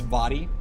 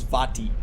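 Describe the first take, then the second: First: The t is softened, American style. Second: The t is pronounced clearly. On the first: The speaker calls it wrong. "if I said it like an American" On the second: The speaker calls it right. "his name is Vati"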